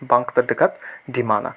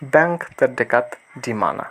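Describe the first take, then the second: First: The vowel in bank sounds like 'father'. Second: The vowel in bank sounds like 'cat'. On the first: The speaker calls it right. "আসল উচ্চারণটা হচ্ছে বাঙ্ক" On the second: The speaker calls it wrong. "ওরা ব্যাংক বলে না"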